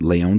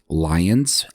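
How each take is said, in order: First: It is said the French way, with no final s. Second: It is said the English way, ending in s. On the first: "I'm using the French pronunciation" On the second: "sometimes you'll see Lyon spelled and pronounced Lyons"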